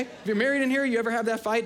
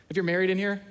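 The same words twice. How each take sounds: First: Raised repeat. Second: Said in the usual way. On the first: Shown as a demonstration. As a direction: lift it up the second time and press the crowd.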